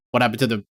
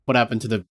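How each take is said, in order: Both takes have the same delivery.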